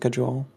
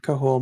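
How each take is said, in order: First: The second syllable starts with a J sound. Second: The second syllable starts with an H sound. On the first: "Google says cajole" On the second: "I've heard it pronounced both ways"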